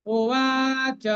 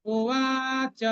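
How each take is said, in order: The two takes are said the same way.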